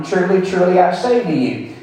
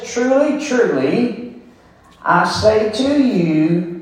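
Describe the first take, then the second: First: Said in the usual way. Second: Emphatic Jesus demanding to be heard. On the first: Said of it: "so Jesus again said to them". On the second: Shown as a demonstration. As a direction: say Truly, truly like a demand for attention. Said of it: "this is an emphatic statement".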